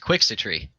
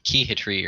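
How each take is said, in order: First: The middle consonant is a ks sound. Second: The middle consonant is an h sound. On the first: This is the name as intended. The speaker calls it right. "It was Quixitry" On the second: This is how other people misread the name. The speaker calls it wrong. "people kept pronouncing it like Keyhitry or something"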